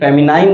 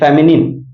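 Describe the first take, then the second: First: The last syllable rhymes with 'nine'. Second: The last syllable rhymes with 'pin'. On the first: The speaker calls it wrong. "फेमिनाइन नहीं" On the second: The speaker calls it right.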